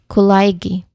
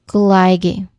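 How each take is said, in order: The two takes are said the same way.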